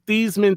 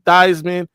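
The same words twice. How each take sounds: First: The first syllable does not rhyme with Heisman. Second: The first syllable rhymes with Heisman. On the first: This is the name's original pronunciation. "changed his last name pronunciation from Theismann" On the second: The name was changed to sound like the trophy. "in hopes that it would enhance his Heisman Trophy candidacy"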